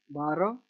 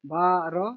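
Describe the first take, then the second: First: Said in the usual way. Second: Each syllable set apart. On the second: Shown as a demonstration. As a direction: sound it out piece by piece for a learner. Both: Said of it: "word आपको divide करने पड़ेंगे".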